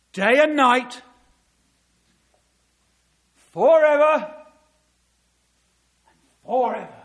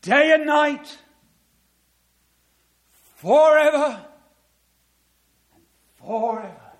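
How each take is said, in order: First: Proclaiming scripture. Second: Loud, high ringing repeat of the verse; proclaimed again. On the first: Preacher to congregation, thundering the verse loudly. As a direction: call it out over the hall. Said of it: "he says this". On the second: Preacher driving the verse home, loud proclamation. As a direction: let it ring out, slower. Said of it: "Not even an atheist theologian could get round that". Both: Acted.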